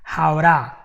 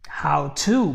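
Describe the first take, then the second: First: It is fast, with the T flapped like an R. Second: Both words are said fully with a clear T. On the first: "when you go very fast, to becomes A" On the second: "you're gonna say how, how to"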